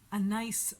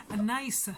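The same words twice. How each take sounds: First: Said in the usual way. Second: "Anais" higher, with the final s sounded out; corrected name pronunciation. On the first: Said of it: "I, I, actually, she said". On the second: Retold or imitated. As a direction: imitate her saying "Anais", lifting the ending. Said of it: "actually, she said".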